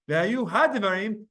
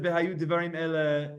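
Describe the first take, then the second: First: "hadevarim" with the "ha" pointed out and the word lifted; stress on hadevarim. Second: Said in the usual way. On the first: Shown as a demonstration. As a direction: lean on "hadevarim" to show the extra ha. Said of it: "It's extra". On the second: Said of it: "If it would have said".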